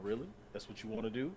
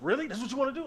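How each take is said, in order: First: It is said quietly and low-key. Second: It is said loudly and over the top. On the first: The speaker calls it right. "all he's doing is walking in and going" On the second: The speaker calls it wrong. "instead of"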